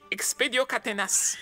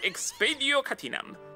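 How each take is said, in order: First: The last word ends with an s sound. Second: The last word ends with an m sound. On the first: The speaker calls it wrong. "ce se întâmplă dacă pronunțăm greșit" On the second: The speaker calls it right. "această incantație se pronunță"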